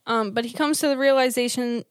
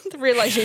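First: Numb lips stumbling; tongue tripping on realization; slurred speech. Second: Careful retry of realization; slurred speech. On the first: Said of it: "I can't talk". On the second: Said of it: "She's slurring her words". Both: Real, not acted.

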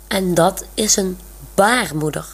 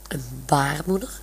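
First: Said in the usual way. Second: "baarmoeder" murmured much softer as a puzzled question, rising at the end; puzzled thought. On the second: A narrator's reading. Olaf wonders about Monique's strange word, soft puzzled "baarmoeder". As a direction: murmur "baarmoeder" to yourself, baffled. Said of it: "denkt Olaf".

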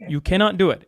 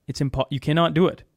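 First: Cannot pushed a little higher and harder; stress on cannot. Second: Said in the usual way. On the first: Real, not acted. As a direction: lean on the word cannot to insist.

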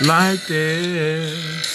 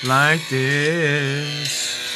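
Both takes have the same delivery.

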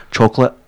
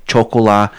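First: Said in the usual way. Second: "chocolat" with silent T, ending on an open "la"; French-style pronunciation. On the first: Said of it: "What's just chocolate". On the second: Retold or imitated. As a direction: say "chocolat" affectedly, choc-o-LAH. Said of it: "It's like people who say".

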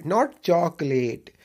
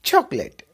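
First: Not चॉकलेट drawn out slowly as the wrong form; wrong chocolate, slow. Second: चॉकलेट ending in let, a bit louder; चॉकलेट with a crisp let; correct chocolate. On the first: Teacher contrasts wrong चॉकलेट slowly. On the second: Teacher models चॉकलेट, let ending. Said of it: "एल ई टी लेट करके बोलिएगा". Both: Shown as a demonstration.

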